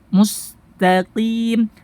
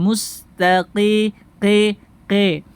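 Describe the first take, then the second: First: Slow MUSTAQIM, long pure EE; raised Q in MUSTAQIM, not pressed, clear I; qaf without itbaq. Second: Slow MUSTAQI slanted to mus-ta-QE; imalah. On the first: Teacher modelling practice, measured qaf and pure kasrah. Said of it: "tidak itbaq". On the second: Teacher warning students, showing imalah error. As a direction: bend the I in QI towards E. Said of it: "jangan sampai imala". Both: Shown as a demonstration.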